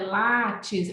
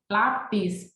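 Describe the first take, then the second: First: The second consonant is a 't' sound. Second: The second consonant is a 'p' sound. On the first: The speaker calls it wrong. "não é látis" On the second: The speaker calls it right. "lápis, P bilabial"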